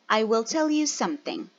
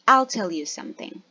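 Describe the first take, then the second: First: Will is said as a separate full word. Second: Will is shortened and joined onto I. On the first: "the positive form of will" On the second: "or in short"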